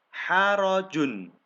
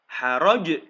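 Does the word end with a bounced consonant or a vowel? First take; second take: vowel; bounced consonant. First: The word ends on its full final syllable. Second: The word ends on a strong bouncing consonant. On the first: The reading continues without stopping. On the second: The reader stops at this word.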